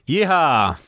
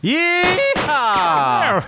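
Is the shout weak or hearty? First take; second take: weak; hearty. First: The shout is weak, not hale and hearty. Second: The shout is hearty, with a voice crack.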